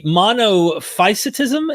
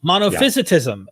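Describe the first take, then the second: First: Monophysitism with "phys" said like "fice", slowly; unsure pronunciation attempt. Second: Monophysitism with "phys" said like "fizz", falling at the end; corrected pronunciation. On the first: Host attempting a hard term for the guest's help, unsure pronunciation. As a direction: sound out monophysitism tentatively, "FICE" in the middle, rising at the end. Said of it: "might have a hard time pronouncing this". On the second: Host repeating the term after the guest's correction, corrected pronunciation. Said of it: "is that how you say it?". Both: Real, not acted.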